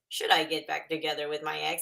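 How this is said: It is said in a put-on robot voice.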